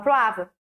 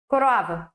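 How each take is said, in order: First: The first syllable's vowel is dropped, said quickly. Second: All three syllables are said with every vowel. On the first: This is how people say it in quick everyday speech. "A gente fala croava. ... É porque é tão rápido" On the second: This is the full standard form. "é coroava"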